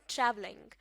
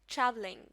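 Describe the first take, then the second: No difference in how they are said.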